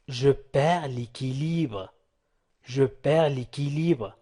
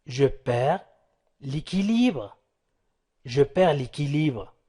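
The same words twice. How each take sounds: The two takes are said the same way.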